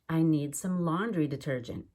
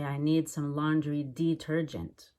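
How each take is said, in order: First: The first syllable of detergent is quick and reduced. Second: The first syllable of detergent is clear and careful. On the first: The speaker calls it right. "It's just detergent" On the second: The speaker calls it wrong. "I wouldn't say"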